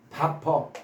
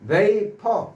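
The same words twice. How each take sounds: First: The first vowel sounds like 'ah', as in 'bah-per'. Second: The first vowel sounds like 'ay', as in 'vay-per'. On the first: It links the word to steam from cooked rice as a memory aid. "vapor라고 발음하지 않고 vapor, 밥" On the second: This is the normal pronunciation of the word. "원래 발음 vapor라고 발음하죠"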